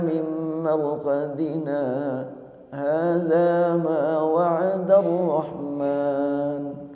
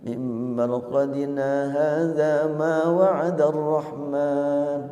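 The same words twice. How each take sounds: First: A brief pause follows 'marqadina'. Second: The words run on with no pause. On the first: "Apabila dibaca dengan empat harokat, maka di sini boleh saktah" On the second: "Tidak ada saktah"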